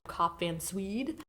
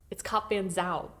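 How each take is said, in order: First: The last vowel sounds like English 'we'. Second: The last vowel sounds like English 'ow'. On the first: The speaker calls it wrong. "we are definitely pronouncing that like you do in English, where it's like a we noise like sound" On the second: The speaker calls it right. "it's an ow sound"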